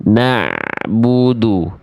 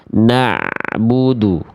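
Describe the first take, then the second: The two takes are said the same way.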